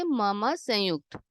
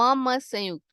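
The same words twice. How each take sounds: First: "म, म संयुक्त" spoken slowly, each sound separated; slow careful pronunciation. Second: Said in the usual way. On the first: Shown as a demonstration. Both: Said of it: "कैसे बोलेंगे हम इसे?".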